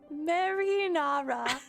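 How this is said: It is said in a British accent.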